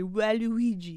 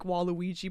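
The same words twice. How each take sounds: First: It is said with a strong French accent. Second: It is said with a plain English accent.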